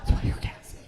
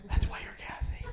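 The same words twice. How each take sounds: First: Unvoiced half-shout. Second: Whispered jab. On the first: Repeated punchline, shouted. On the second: Acted. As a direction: whisper it as a teasing aside. Whispered punchline.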